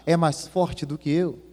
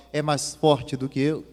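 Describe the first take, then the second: No difference in how they are said.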